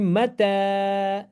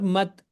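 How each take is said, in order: First: The word ends with a long a vowel. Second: The word ends on the bare consonant t. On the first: The speaker calls it right. "So it will be mata" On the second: The speaker calls it wrong. "not mat"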